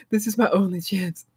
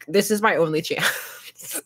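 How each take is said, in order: First: Said in the usual way. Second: Slow, half-laughing mock despair; mock desperate. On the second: Explaining cheap game buys, slow mock-desperate whine. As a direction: plead it like a last chance, slowly. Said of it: "'cause I was like".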